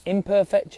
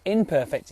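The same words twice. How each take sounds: First: "imperfect" split as "I'm" and "perfect". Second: "imperfect" said as one word, stress on "per"; im-perfect. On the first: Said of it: "It's not imperfect". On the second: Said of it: "it's imperfect". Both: Shown as a demonstration.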